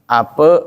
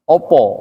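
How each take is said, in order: First: The word is said with an e vowel. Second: The word is said with an o vowel. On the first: "bacanya E" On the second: "dan bacanya O"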